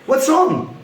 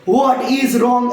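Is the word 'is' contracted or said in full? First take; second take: contracted; full. First: The word 'is' is contracted into 'what's'. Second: The word 'is' is said in full. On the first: The speaker calls it right. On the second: The speaker calls it wrong.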